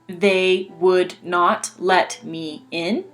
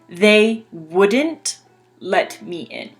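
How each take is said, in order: First: Would and not are said as two full words. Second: Would and not are contracted into one word. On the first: "These two sentences mean the same thing" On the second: "These two sentences mean the same thing"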